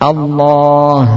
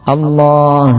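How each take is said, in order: The two takes are said the same way.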